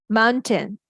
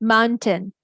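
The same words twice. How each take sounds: No difference in how they are said.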